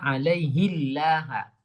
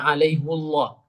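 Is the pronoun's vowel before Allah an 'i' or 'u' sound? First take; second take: i; u. First: The pronoun is said with an 'i' vowel. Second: The pronoun is said with an 'u' vowel. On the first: This is another reciter's reading that follows the basic rule. "dibaca kasroh ya. Alaihillah" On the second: This is one reciter's reading that departs from the basic rule. "Beliau justru membaca alaihullah"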